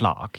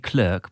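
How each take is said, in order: First: The word is said with a British pronunciation. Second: The word is said with an American pronunciation. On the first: "we in this country say clerk" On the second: "If you're American, they sort of say clerk"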